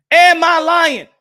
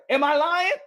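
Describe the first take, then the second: First: Loud challenge. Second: Said in the usual way. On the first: Real, not acted. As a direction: hit AM hard and demand an answer. Repeats question, now loudly.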